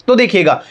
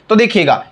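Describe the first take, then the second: Both takes have the same delivery.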